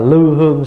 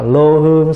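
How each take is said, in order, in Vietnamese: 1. Âm tiết đầu có nguyên âm 'ư' không tròn môi. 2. Âm tiết đầu có nguyên âm 'ô' tròn môi. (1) "sau này mình phát âm là lư hương" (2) "Ngày xưa bản kinh ngoài Bắc là lô hương"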